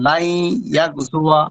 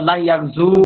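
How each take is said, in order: First: The verb ends with a clear final a vowel. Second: The verb ends without a final a vowel. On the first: The speaker calls it right. "প্রকাশ্য ফাতা হবে" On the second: The speaker calls it wrong. "বললে পারে ভুল হবে"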